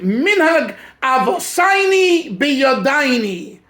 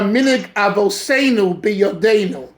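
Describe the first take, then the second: First: It is said in a Hungarian Yiddish accent. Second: It is said in a standard accent.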